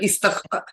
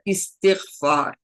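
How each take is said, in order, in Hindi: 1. यह 'ista' से शुरू होता है, 't' के बाद कोई 'i' नहीं। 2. यह 'isti' से शुरू होता है, 't' के बाद 'i' है।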